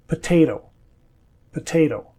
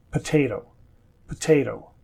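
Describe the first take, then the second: First: Potato with the last T tapped like a D; potato, soften the final T to a D; second T flapped. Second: Potato with the first T crisp and aspirated; potato, hit the middle T cleanly; clear first T. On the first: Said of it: "sounds like a D". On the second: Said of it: "sounds like a clear T". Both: Shown as a demonstration.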